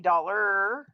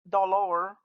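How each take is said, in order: First: The last syllable is a tight er sound. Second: The last syllable has a full vowel sound. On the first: The speaker calls it right. "We say dollar" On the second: The speaker calls it wrong. "not dollar"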